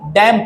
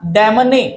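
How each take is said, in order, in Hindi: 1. अंतिम n ध्वनि silent है। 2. अंतिम n ध्वनि बोली जाती है।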